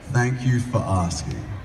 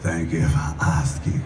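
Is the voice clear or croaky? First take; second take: clear; croaky. First: The voice sounds clear and smooth. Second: The voice sounds rough and croaky.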